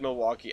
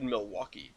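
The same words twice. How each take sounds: First: The word has a plain, ordinary intonation. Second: The word has an exaggerated, marked intonation. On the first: The speaker calls it right. "but still, I thought it said Milwaukee" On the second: The speaker calls it wrong. "not with that intonation"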